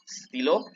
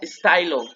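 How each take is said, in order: First: The word is said with a French pronunciation. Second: The word is said with an English pronunciation. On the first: The speaker calls it right. "Un stylo" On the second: The speaker calls it wrong. "quítense el chip inglés. No se pronuncia stylo"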